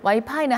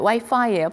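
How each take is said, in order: First: It is said with a Korean pronunciation. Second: It is said with an English pronunciation. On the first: "와이파이는 한국어입니다" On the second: "와이파이예요, 발음은"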